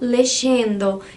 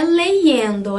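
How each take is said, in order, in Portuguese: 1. O y é pronunciado como som de sh. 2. O y é pronunciado como um i vogal simples. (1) "ou lexendo" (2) "não é leyendo... não é o som do I"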